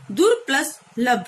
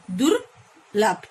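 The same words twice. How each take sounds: First: Said in the usual way. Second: दुर्लभ said very slowly as one word; slow joined word. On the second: Shown as a demonstration. Teacher joining prefix and word for pupils, very slow. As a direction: draw out दुर्लभ, syllable by syllable.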